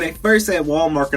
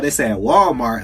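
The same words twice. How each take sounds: First: "Walmart" said as Wall Market, with a k after "mar". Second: Said in the usual way. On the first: Shown as a demonstration. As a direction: say "Walmart" with an extra -ket ending. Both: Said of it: "I thought they said Walmart".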